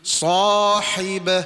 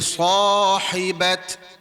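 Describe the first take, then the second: First: The word ends with an h sound. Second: The word ends with a t sound. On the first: The speaker calls it right. "Dia kena bunyi sahibah" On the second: The speaker calls it wrong. "Tak boleh bunyi dengan huruf ta. Tak boleh sahibat"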